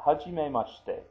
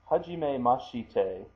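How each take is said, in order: First: The shi is softened, its vowel barely heard. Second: The shi is pronounced fully with its vowel.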